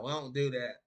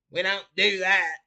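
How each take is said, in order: First: Said in the usual way. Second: Higher, louder mock country accent. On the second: Shown as a demonstration. North Carolinian denying he talks that way, mock country accent. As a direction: put on a heavy country accent, pitched up. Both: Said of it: "with a country accent like that".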